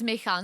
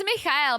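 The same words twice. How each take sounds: First: "Michal" said Czech-style with a throaty ch and a plain -al; short-form name pronunciation. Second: "Michael" said Czech-style with a throaty ch and a separate final -el; full-form name pronunciation. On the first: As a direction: say "Michal" as mee-khal. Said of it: "No one calls him Michael". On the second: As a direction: say "Michael" as mee-kha-el. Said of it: "but it's Michal". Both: Shown as a demonstration.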